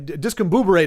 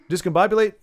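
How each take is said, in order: First: The word ends with the sounds 'buberate'. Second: The word ends with the sounds 'bobulate'. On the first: The speaker calls it wrong. "discombuberate is not. My dad used to say discombuberate" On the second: The speaker calls it right. "Discombobulate is definitely a word"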